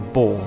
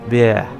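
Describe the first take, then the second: First: The vowel sounds like the one in 'boar'. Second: The vowel sounds like the one in 'bear'. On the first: The speaker calls it wrong. "People say Boar" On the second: The speaker calls it right. "it's actually uh, more like Bear"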